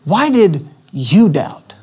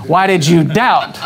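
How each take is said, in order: First: Gently, as a caring friend would ask "Why did you doubt?"; slow, tender version of "Why did you doubt?"; gentle question. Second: "why did you doubt?" as a mild reproach with a falling end; the usual scolding reading of "why did you doubt?"; chiding disciple's failure; scolding rebuke. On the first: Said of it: "get the essence of it again". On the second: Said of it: "what do we normally do?". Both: Shown as a demonstration.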